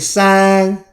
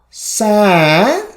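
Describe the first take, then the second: First: The pitch stays high and level. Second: The pitch dips low and then rises.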